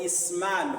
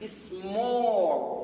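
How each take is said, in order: First: The vowel sounds like an open a. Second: The vowel sounds like an o. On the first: The speaker calls it wrong. "não vamos ler small" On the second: The speaker calls it right. "porque depois de A apareceu a letra L"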